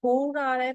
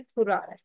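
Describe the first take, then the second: First: Long, higher oo in फुर. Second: फुर with a short, quick u; brief u in फुर, not oo. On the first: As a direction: stretch and lift the vowel in फुर. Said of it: "long sound आ रहा है". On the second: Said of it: "short sound आ रहा है". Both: Shown as a demonstration.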